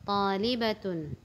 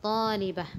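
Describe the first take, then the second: First: The word ends with a full 'atun' ending. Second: The word ends with a short 'ah' sound. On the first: The word is read with its vowel ending, not at a stop. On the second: The word is read at a stop.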